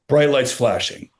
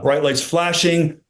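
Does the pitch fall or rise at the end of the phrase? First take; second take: fall; rise. First: The pitch falls at the end of the phrase. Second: The pitch rises at the end of the phrase. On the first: The energy drops and the delivery sounds repetitive. The speaker calls it wrong. "our tendency is to bring the inflection down" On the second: The energy stays up and keeps listeners engaged. The speaker calls it right. "Instead of lifting the inflection up"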